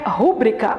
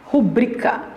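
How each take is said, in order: First: The stress is on the first syllable. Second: The stress is on the second syllable. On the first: The speaker calls it wrong. "A pronúncia não é rúbrica" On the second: The speaker calls it right. "ela é paroxítona"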